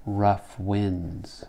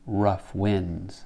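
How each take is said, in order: The two takes are said the same way.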